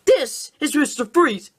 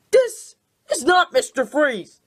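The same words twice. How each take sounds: First: Said in the usual way. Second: Not hit hard in This is not Mister Freeze; stress on not. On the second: Shown as a demonstration. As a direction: lean on the word not.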